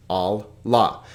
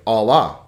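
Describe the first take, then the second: First: Allah split as Al, then lah; divided double letter. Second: Said in the usual way. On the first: Shown as a demonstration. Teacher dividing the double letter, Allah in two parts. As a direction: pause between the two l's of Allah. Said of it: "divide in between the double letter". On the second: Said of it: "same when you put it together".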